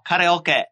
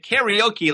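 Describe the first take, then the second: First: Karaoke is said with a Japanese accent. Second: Karaoke is said with an English accent. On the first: Listeners understand the word. The speaker calls it right. "you do it in the accent" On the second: Listeners do not understand the word. The speaker calls it wrong. "or people don't understand you"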